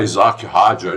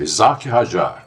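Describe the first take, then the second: First: The name is pronounced the English way. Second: The name is pronounced the French way. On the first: The speaker calls it wrong. "O pessoal aí está falando em inglês. ... isso não existe" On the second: The speaker calls it right. "Ele é francês, ... Essa é a pronúncia certa"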